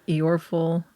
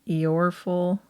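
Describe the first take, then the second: Both takes have the same delivery.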